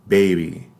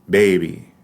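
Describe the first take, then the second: Both takes have the same delivery.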